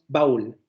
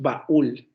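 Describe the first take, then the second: First: The two vowels blend into one syllable. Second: The two vowels fall in separate syllables. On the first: The speaker calls it wrong. "no decimos baúl" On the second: The speaker calls it right. "Decimos baúl"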